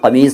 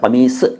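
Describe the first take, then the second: First: The word ends with a z sound. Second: The word ends with an s sound. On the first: The speaker calls it wrong. "कमीज़ नहीं है" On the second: The speaker calls it right. "Last में ज़ नहीं है, स है"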